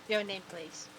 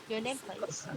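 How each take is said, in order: No difference in how they are said.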